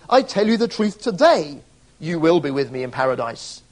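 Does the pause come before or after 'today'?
after. The pause comes after the word today.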